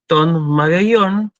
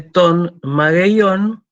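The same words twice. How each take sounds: First: "ton mageion" slow, stressed at the end; Greek pronunciation. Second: "ton mageion" drawn out very slowly, stress on the last syllable; slow demo of "ton mageion"; Greek pronunciation. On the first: Teacher demonstrates "ton mageion" to class, slowly. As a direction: model the circumflex in "ton mageion". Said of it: "lleva ese acento por la regla". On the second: Teacher models "ton mageion" for students, slow. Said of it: "Fíjense cómo cambió el acento". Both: Shown as a demonstration.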